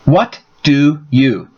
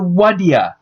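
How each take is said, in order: First: Each word is said fully with clear stress. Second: The phrase collapses into two short blended syllables. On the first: "To say do you by themselves, there is a lot more stress" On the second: "If it is reduced further, it could even be taken to what ya"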